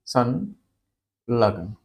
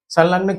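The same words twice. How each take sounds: First: संलग्न drawn out very slowly, syllable by syllable; slow careful pronunciation. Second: Said in the usual way. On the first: Shown as a demonstration. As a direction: spell out संलग्न slowly, every sound clear. (संलग्न को बहुत धीरे, एक-एक ध्वनि साफ़ बोलते हुए) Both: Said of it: "ध्यान से समझिए इस बात को".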